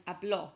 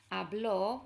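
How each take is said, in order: First: "habló" said as ab-LO, final o stressed; past-tense "habló", weight landing on the accented o; stress on end syllable. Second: "habló" said as HAB-lo, first syllable stressed; "habló" with the accent left off the final o. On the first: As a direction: hit the last syllable of "habló". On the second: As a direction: lean on the opening of "habló", as in present-tense HAB-lo. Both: Shown as a demonstration. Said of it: "puts the stress on the end syllable".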